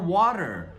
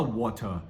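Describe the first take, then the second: First: The middle t is a quick flap. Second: The middle t is a clear, hard t. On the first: The speaker calls it right. "a gente fala water" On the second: The speaker calls it wrong. "A gente não fala water no inglês americano"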